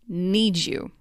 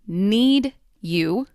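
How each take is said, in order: First: The D and Y blend into a j sound. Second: The D and Y sounds are kept separate.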